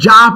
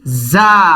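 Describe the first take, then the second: First: The consonant has no whistle, like a j sound. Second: The consonant is a buzzing, whistling z sound. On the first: The speaker calls it wrong. "इसको बहुत सारे लोग जा पढ़ते हैं" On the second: The speaker calls it right. "ऊपर नीचे के दांत हल्के आपस में मिलेंगे और एक आवाज निकलेगी"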